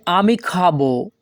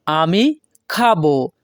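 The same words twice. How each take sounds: First: Said in the usual way. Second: আমি, a clear pause, then খাবো; word by word. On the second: Shown as a demonstration. Teacher repeats the new sentence for learners, word by word. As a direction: split আমি from খাবো with a gap. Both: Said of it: "পরবর্তীতে আছে".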